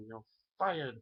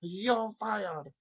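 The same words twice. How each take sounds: First: A light take on Trump, a bit higher; Trump impression. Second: Much higher and louder, over-the-top Trump; Trump impression. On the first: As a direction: try out the catchphrase gently. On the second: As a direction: belt it out as a cartoon Trump. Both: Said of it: "do a Trump impersonation".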